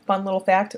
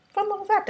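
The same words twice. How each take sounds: First: Said in the usual way. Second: Fun little fact repeated much higher, playful; squeaky repeat. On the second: Shown as a demonstration. Vlogger teasing viewers with trivia, squeaky playful repeat. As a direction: echo the aside in a squeaky sing-song.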